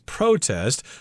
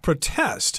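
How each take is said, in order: First: The stress is on the first syllable. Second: The stress is on the second syllable. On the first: It is said the same way as the noun. "they will pronounce it as" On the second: It is used as a verb. "as a verb, this word is supposed to be pronounced"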